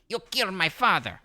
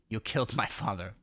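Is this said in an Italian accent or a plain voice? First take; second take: Italian; plain. First: It is said in a put-on Italian accent. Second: It is read in the speaker's own plain accent.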